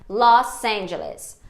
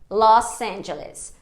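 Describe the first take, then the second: First: The s of Los is a voiceless s sound. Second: The s of Los is a voiceless s sound.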